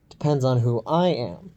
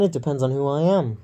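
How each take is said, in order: First: "I" lifted and stressed, falling on "am". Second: "it depends on who I am" with the lift early, on "it"; stress off "I". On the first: Showing the correct way to say it, stress on "I". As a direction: lean on "I" in "who I am". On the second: Correcting own inflection to the friend, stress landing early on "it". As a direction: misplace the stress, away from "I". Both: Shown as a demonstration. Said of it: "The correct way to say that was".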